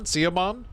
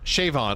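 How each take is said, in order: First: The name is said to rhyme with Cinnabon. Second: The name is said as Shavon, with sh. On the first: The speaker calls it wrong. "Like Cinnabon?" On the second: The speaker calls it right. "What part of Siobhan is supposed to be Shavon?"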